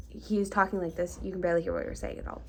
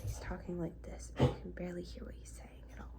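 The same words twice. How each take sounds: First: Said in the usual way. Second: Barely audible whispered imitation; extremely quiet. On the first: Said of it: "I will add". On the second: Vlogger mimics the man who approached them, extremely quiet. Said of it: "He's talking extremely quiet".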